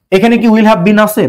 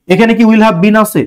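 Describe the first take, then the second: No difference in how they are said.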